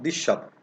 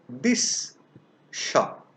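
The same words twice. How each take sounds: First: Said fast, the s sound blends into sh. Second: The words are separate and the s sound is clear. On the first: "The sound saw is vanishing" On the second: "When I am pronouncing the two words separately"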